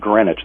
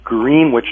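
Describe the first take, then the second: First: The name is said differently from its spelling. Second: The name is said just as it is spelled. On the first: The speaker calls it wrong. "not Greenwich" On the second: The speaker calls it right. "actually is pronounced Greenwich"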